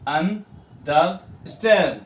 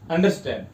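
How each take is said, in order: First: "understand" slowly split into syllables, leaning on "stand"; stress on STAND. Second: Said in the usual way. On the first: Shown as a demonstration. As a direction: break "understand" into un, der, STAND with the last part stressed. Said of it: "stand पे जोर आ रहा है". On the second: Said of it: "लेकिन ऐसे हम इसको पढ़ेंगे".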